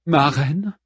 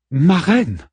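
First: Higher, questioning call to the queen; hesitant "my queen?", pitched up; Brémusa calling. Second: High, insistent call to the queen; Brémusa calling out. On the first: Warrior trying to get her queen's attention, questioning call. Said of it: "entendit une voix". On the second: Warrior calling her distracted queen again, insistent call. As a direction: call out sharply to your queen. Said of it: "se tourna vers Brémusa". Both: A narrator's reading.

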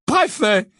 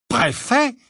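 First: High, loud exclamation falling at the end; stunned exclamation. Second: High, rising incredulous question. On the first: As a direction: blurt it out in loud disbelief. Stunned repeat of the word. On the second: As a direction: ask it in disbelief, pitch jumping up. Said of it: "d'un air incrédule". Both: A narrator's reading.

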